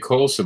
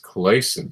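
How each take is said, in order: First: The first vowel sounds like 'oh'. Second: The first vowel sounds like 'ay'. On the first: The speaker calls it wrong. "I always say Colson" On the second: The speaker calls it right. "I think it's Clayson"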